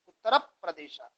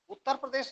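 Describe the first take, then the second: First: The words join with a doubled p sound. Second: The words join with a single p sound. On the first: This is how learned scholars say it. "वो सही उच्चारण करते हैं।" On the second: This is the everyday way people say it. "उत्तर प्रदेश नहीं कहेंगे"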